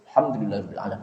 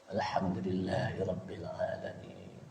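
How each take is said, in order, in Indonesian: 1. Frasa itu dibaca cepat dan tergesa-gesa. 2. Frasa itu dibaca dengan tempo normal, tidak terburu-buru. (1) "bacaannya cepat pada saat sir" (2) "Jadi baca tetap"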